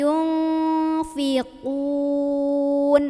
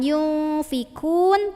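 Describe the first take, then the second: First: The consonant is a deep back q sound. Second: The consonant is a front k sound. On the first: The speaker calls it right. "Naikin pangkal lidah" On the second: The speaker calls it wrong. "hati-hati lagi ketukar sama ka"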